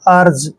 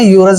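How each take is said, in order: First: The word starts with an 'er' sound. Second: The word starts with a 'yoo' sound. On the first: The speaker calls it right. "इसको पढ़ेंगे हम अर्ज" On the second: The speaker calls it wrong. "इसको हमने यूरज नहीं पढ़ना है"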